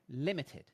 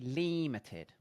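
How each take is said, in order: First: The first vowel is short. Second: The first vowel is long. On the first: The speaker calls it right. "It's short. So it must be I" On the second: The speaker calls it wrong. "if it was E, it would be long"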